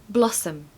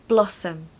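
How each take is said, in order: The two takes are said the same way.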